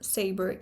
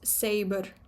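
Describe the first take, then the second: First: The vowel is colored by R, no separate R. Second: A distinct R sound follows the vowel. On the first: The speaker calls it wrong. "This is not saber" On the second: The speaker calls it right. "the R sound which follows the vowel"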